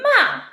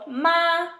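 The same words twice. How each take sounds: First: It is said with the fourth tone. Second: It is said with the first tone. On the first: It means to scold someone. "fourth tone, means to scold someone" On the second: It means mother. "first tone, means mother"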